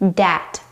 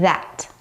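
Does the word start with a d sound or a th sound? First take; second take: d sound; th sound. First: It starts with a d sound. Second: It starts with a voiced th sound. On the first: The speaker calls it wrong. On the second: The speaker calls it right.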